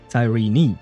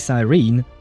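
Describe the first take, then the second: First: The name ends with a final vowel sound. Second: The name ends without a final vowel sound. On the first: The speaker calls it right. "she says Cyrene" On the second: The speaker calls it wrong. "she doesn't say Cyrene"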